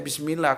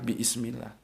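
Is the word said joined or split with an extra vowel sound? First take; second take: joined; split. First: The word is said as one joined unit. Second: The word is split with an added vowel. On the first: "tetap aja bismillah" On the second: "ditambahi alif"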